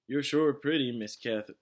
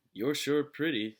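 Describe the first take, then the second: First: Leering sheriff. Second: Slow, leering drawl, louder; leering sheriff. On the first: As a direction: say it with a leer. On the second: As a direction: drawl it with a leer. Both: A narrator's reading. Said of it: "said the sheriff".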